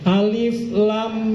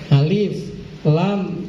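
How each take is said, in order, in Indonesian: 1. Nama-nama huruf menyambung tanpa jeda. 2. Nama-nama huruf diucapkan dengan jeda yang jelas di antaranya. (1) "tapi harus disambung" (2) "tidak boleh diputus diputus-putus seperti tadi"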